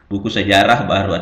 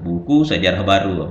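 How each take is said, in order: First: Buku sejarah is grouped, with a break before baru. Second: Sejarah baru is grouped, with a break after buku. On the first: The history book is new. "cara bacanya itu satu rangkai ini sejarah" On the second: The book is about new history. "tanda hubungnya berarti sejarah baru"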